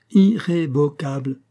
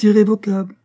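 First: "Irrévocable" slowly, each syllable pressed; stressing every syllable. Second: Said in the usual way. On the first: A narrator's reading. Husband confirming the divorce, "Irrévocable" syllable by syllable. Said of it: "en appuyant sur chaque syllabe".

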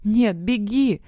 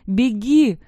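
First: Urgent plea, slightly raised; imploring cry, short of a scream; desperate plea. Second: High, loud urgent yell; full-voiced cry to flee. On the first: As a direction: beg them to flee. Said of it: "взмолилась я". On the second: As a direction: scream the warning at them. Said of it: "вновь заорала я". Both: A narrator's reading.

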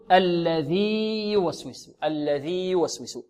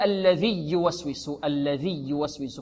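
First: الذي with its long ya held, then يوسوس starting on a clean ya; slow recitation keeping the ya sounds apart; correct separated ya. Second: الذي يوسوس with the ya of الذي swallowed into يوسوس; quiet, quick mistaken recitation; wrong merged ya. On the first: Teacher shows students the correct reading. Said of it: "خطأ، بل نقول". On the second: Teacher shows students the wrong merging, more softly. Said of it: "لا نقول". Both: Shown as a demonstration.

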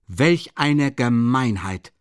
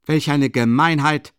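First: Slowed, louder, each word weighed; slow emphatic repeat. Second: Loud, higher indignant shout from the doorway; loud outcry. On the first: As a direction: repeat the outrage deliberately, staring him down. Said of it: "wiederholte Lebesjetnikow". (langsam und nachdrücklich wiederholt) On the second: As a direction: hurl the outrage across the room. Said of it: "eine laute Stimme von der Tür her". (laut empörter Ausruf von der Tür) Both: A narrator's reading.

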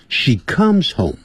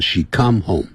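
First: Slow model "she comes home", S sounded on "comes"; comes with final S. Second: "she come home" with no ending on "come"; come without S. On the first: Teacher modelling correct grammar for students, "comes" with its S ending. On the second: Teacher showing students what not to say, bare "come". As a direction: drop the S from "comes", saying bare "come". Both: Shown as a demonstration. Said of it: "不要说".

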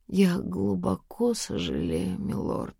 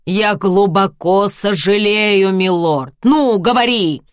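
First: Soft, slow, fading to a whisper; quiet mock apology. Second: Loud, high, slow mocking shout; harsh barking commands. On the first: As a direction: say it quietly, exaggerated. Bride's forced exaggerated apology. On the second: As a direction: force the words out, furious. Husband forces apology, shouting.

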